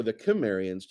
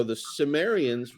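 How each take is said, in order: First: "Kimmerians" begun with a k sound; hard k opening on "Kimmerians"; hard-C pronunciation. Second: "Cimmerians" begun with an s sound; soft s opening on "Cimmerians"; soft-C pronunciation. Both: Shown as a demonstration. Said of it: "depending on how you pronounce that".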